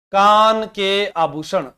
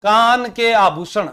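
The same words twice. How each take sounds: First: Chanted, slow, drawn out, falling on आभूषण; chanted, close the phrase slowly, falling. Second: Chanted, slow, drawn out with a lift at the end; slow rising chant. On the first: Chanted, teacher repeating the topic for students, slow and falling. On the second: Teacher chanting the topic to students, slow and rising. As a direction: chant it slowly for the class, rising. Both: Shown as a demonstration.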